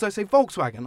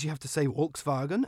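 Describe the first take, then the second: First: Volkswagen said with English v and w; anglicised Volkswagen. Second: Volkswagen said as "Folks-vah-gen"; native German pronunciation. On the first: Host defends his consistency, Volkswagen said the English way. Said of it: "I'm just trying to be consistent". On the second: Host argues against native names, Volkswagen said the German way. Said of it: "intended in their native tongue". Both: Shown as a demonstration.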